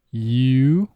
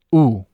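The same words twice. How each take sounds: First: English "U" starting with a y glide, long; "U" said like English you; English vowel U. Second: Spanish "U" short, pure oo; "U" as a short clean Spanish oo; Spanish vowel U. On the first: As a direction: stretch the English "U". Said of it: "say the vowel in English". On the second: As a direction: clip the Spanish "U". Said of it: "followed immediately by Spanish". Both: Shown as a demonstration.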